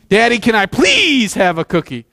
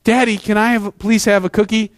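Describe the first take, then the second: First: Put-on whiny child. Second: Said in the usual way. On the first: Shown as a demonstration. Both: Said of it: "The exact same words, different attitude".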